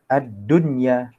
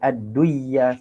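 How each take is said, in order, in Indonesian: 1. Bunyi n dibaca dengan jelas, tanpa peleburan sengau. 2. Bunyi n melebur ke dalam bunyi y setelahnya. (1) "kita baca dengan izhar"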